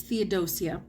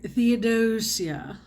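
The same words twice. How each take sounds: First: Said in the usual way. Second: "Theodosia" drawn out slowly, lightly stylised; name as imagined. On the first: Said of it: "I hear Theodosia". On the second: Shown as a demonstration. Reader showing how she hears the heroine's name, slowly drawn-out "Theodosia". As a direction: stretch out "Theodosia" as a name savoured in your head. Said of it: "In my head, when I'm reading it".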